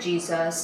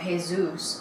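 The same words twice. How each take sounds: First: The name begins with an English J sound. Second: The name begins with an H sound.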